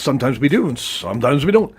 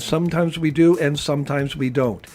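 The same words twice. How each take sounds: First: It is said with natural, varied emotion. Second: It is said flat, without emotional variation. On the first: The speaker calls it right. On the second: The speaker calls it wrong.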